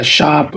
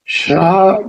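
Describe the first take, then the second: First: "शाप" said plainly as "shaap" with a single sh and no r; correct pronunciation. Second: "श्राप" said as "shraap" with an r after the sh; wrong pronunciation. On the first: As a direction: clear "शाप", no r after the sh. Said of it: "but शाप is correct". (सही उच्चारण "शाप", बिना र के) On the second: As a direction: demonstrate the wrong "श्राप", with the r sounded. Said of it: "श्राप is wrong". (गलत उच्चारण "श्राप", श के बाद र के साथ) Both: Shown as a demonstration.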